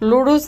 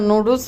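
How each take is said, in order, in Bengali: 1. শব্দটা L ধ্বনি দিয়ে শুরু হয়। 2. শব্দটা N ধ্বনি দিয়ে শুরু হয়। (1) "লুডুস না" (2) "নুডলস হবে"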